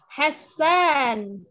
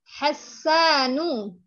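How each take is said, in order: First: The word ends with a bare consonant. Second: The word ends with a short vowel. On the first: "dengan mensukunkan uh, huruf terakhirnya" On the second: "nggak bertanwin ya"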